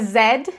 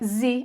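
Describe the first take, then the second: First: The letter is said the British English way. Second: The letter is said the American English way. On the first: "a pronúncia de Z em inglês britânico" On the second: "a pronúncia de Z em inglês americano"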